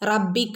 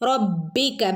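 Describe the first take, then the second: First: The b sound is weak and light. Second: The b sound is strong and thickened. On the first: The speaker calls it wrong. "എന്ന് ഓതരുത്" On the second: The speaker calls it right. "ബഇനെ ഒന്ന് കനപ്പിച്ചു കൊടുക്കുക"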